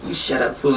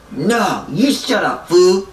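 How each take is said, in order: First: Said in the usual way. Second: High retort, loud on the last word; mock angry comeback. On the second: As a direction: imitate a quarrelling buddy, punching 'fool'. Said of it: "And he's like".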